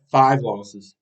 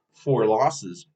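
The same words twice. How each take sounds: First: Slow correction with "five" pressed; correcting his count, leaning on "five"; stress on five. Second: Said in the usual way. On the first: Real, not acted. Fan fixing his loss tally, slow and stressed on "five". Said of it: "my bad". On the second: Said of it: "my bad, five losses".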